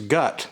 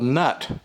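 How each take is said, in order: First: The word starts with a g sound, no n. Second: The word starts with an n sound, no g. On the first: "the N is silent" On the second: "Maybe the G is silent"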